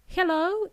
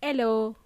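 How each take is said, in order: First: Hello with a strong breathed h; Hello, clear h at the start; h pronounced. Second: Hello without its h, "ello"; hello, starting straight on the vowel; h dropped. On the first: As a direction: say "Hello" with its H sounded. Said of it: "we pronounce letter H". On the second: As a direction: drop the H from "hello". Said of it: "is not pronounced hello". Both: Shown as a demonstration.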